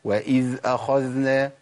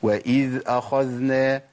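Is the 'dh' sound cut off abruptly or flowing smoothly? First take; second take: smooth; smooth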